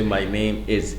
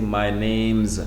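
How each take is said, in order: First: The word 'is' is said as a full word. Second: The word 'is' is joined onto 'name'. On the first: The speaker calls it wrong. "we don't say my name is" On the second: The speaker calls it right. "we say my name's"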